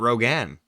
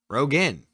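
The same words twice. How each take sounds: First: The last syllable sounds like 'gan'. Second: The last syllable sounds like 'gen'. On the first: The name is remembered as spelled R O G A N. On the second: The name is spelled R O G E N now. "it's just spelled R O G E N"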